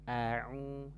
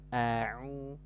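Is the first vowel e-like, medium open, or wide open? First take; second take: medium open; medium open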